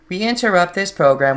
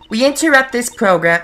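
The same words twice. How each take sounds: First: It is said in a put-on computer voice. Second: It is said in a put-on nurse voice. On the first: "I'll just do a generic computer voice" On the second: "that's the same as the nurse voice I was doing"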